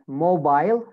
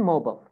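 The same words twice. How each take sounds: First: British "mobile", ending like "bile"; British accent. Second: American "mobile", ending in a short "bull"; American accent. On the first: Teacher models British "mobile" for students, long I. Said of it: "In British accent". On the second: Teacher models American "mobile" for students, reduced last vowel. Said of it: "American accent". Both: Shown as a demonstration.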